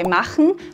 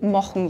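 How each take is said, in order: First: The first vowel is an open 'ah' sound. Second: The first vowel is a darker, 'oh'-like sound.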